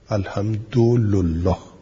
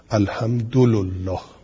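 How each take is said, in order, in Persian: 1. د u دارد و ل u دارد. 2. د u دارد و ل u دارد.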